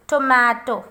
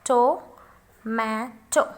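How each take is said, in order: First: Said in the usual way. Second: Tomato very slowly, in three separate syllables; tomato spaced out with pauses to show the stress. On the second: Shown as a demonstration. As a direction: break tomato into to, ma, to. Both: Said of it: "So where is the stress?".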